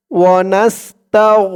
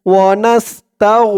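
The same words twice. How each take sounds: The two takes are said the same way.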